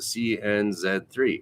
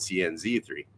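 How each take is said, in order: First: The letter Z is said the non-American way. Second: The letter Z is said the American way.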